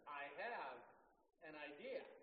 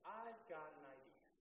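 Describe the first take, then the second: First: It is said more forcefully and firmly. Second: It is said gently and plainly.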